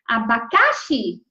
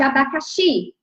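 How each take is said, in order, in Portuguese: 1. A tônica sai da sílaba de sempre. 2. A tônica cai na última sílaba de sempre. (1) "vamos mudar onde está a, a, a sílaba tônica?" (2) "qual é a mais forte?"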